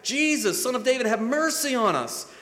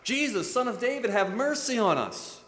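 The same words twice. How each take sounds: First: Higher, louder desperate plea; louder cry. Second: High pleading call; first cry. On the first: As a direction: cry out even louder for mercy. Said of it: "cried out all the louder". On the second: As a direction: call out to Jesus. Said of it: "they cried out". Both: Retold or imitated.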